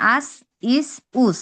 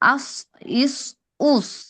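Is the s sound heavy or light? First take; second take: light; heavy. First: The s sound is plain and light. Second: The s sound is thick and heavy. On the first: "সিনের আওয়াজ হবে এরকম" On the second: "সদের উচ্চারণ হবে"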